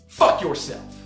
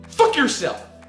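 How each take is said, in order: First: It is said weakly, without conviction. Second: It is said forcefully, with conviction.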